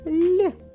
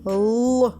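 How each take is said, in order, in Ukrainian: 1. Звук л м'який, пом'якшений. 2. Звук л твердий, не пом'якшений. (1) "який вимовляється м'яко" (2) "це звук Л"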